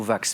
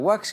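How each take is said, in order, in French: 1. Le mot commence par un son V. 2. Le mot commence par un son W. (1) "Et le tissu, c'est plutôt vax" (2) "pour pas le confondre justement avec la wax, qui est une forme de cire"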